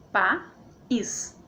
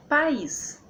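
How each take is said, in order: First: "pa, is" in two separate beats; split into syllables. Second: Said in the usual way. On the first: Shown as a demonstration. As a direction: pause between pa and is. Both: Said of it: "Então fica assim".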